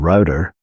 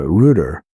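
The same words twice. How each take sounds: First: It is said in an American accent. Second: It is said in a British accent. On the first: "is a router in the U S" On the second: "router in the U K"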